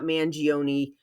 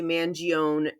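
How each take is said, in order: First: The name has the usual general American pronunciation. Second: The name has a New York Italian-American pronunciation. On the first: "not Mangione" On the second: "a lot of Italian Americans from the tri-state area will say Mangione"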